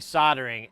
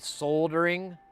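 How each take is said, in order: First: The L sound is left out of the word. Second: The L sound is pronounced in the word. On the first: "the L is silent" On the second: "It technically should be soldering"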